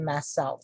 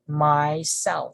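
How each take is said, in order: First: The sounds run together in one smooth blend. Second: The sounds are said plainly and kept separate. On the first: "If you would like to to to blend the sounds, we say myself" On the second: "if you just would like to be more simple, just you can just say myself"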